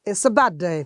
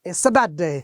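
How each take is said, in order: No difference in how they are said.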